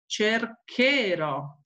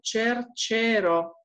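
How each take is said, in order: First: The consonant before the ending sounds hard, like K. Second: The consonant before the ending sounds soft, like CH. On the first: The speaker calls it right. "pongo CH para dar un suono como K" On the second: The speaker calls it wrong. "si yo no pongo la H, pronuncio cercero"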